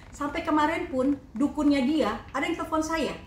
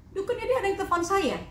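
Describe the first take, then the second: First: Said in the usual way. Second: Higher, stressing dia; emphatic repeat. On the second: Real, not acted. Insisting to the reporters that his shaman phoned her, emphatic.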